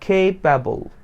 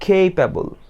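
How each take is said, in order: First: The first vowel is an 'ay' glide. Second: The same.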